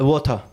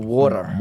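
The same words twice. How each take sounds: First: It is said with a British-like accent. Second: It is said with an American accent.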